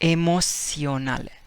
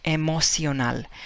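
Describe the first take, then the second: First: The first vowel is said like 'ay'. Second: The same.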